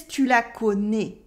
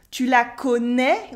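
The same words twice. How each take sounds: First: Southern French "tu la connais", ending on closed "né"; "tu la connais" in a southern France accent. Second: "tu la connais" ending on an open eh; Parisian eh. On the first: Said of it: "He says". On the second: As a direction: open the last vowel of "connais" to eh. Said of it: "more Parisian with this eh". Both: Shown as a demonstration.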